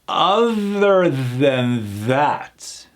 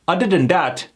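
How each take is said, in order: First: The words begin with a th sound. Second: The words begin with a d sound. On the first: The speaker calls it right. "with the hard T H mechanics" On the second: The speaker calls it wrong. "What happens if I do D?"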